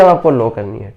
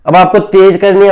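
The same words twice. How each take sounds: First: Dropped much lower and softer; quieter demo. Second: A touch louder, pushing the note up; louder demo. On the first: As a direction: let the voice sink low and soft to show it. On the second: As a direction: lift the voice a little on this instruction. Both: Shown as a demonstration. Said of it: "बताया जाएगा कि अब आपको frequency".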